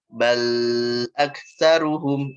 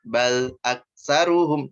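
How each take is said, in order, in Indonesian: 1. Bunyi setelah konsonan dipanjangkan. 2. Bunyi setelah konsonan berhenti mendadak. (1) "Sengaja panjangin suara al-nya" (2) "Loh, itu berhenti"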